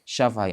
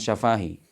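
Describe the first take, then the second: First: No 'a' vowel in the word is drawn out. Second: One 'a' vowel in the word is drawn out long. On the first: The speaker calls it right. "alifnya dihilangin" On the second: The speaker calls it wrong. "Itu bukan syafahi"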